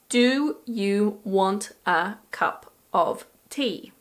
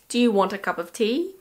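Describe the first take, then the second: First: Every word is said slowly and fully. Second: Words are shortened and run together quickly. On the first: The speaker calls it wrong. "this sentence pronounced slowly is" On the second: The speaker calls it right. "We would say"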